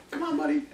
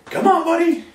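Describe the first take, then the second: First: Much higher, soft sing-song invite; high coaxing call. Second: High, loud sing-song invite; a visitor luring the dog up; high coaxing call. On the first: Shown as a demonstration. Trainer inviting dog back up, high soft coax. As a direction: lure the dog up, sweetly. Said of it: "I do it again". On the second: Retold or imitated. Visitor at the door calling dog, high loud coax. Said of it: "somebody comes over your house and goes".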